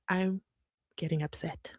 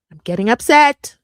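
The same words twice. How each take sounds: First: Much softer, lower, held in; quietly upset. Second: Loud, rising exasperated outburst; getting upset. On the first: Vlogger admitting anger to viewers, low and soft. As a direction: say it under your breath. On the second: Vlogger admitting anger to viewers, loud exasperated burst. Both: Real, not acted.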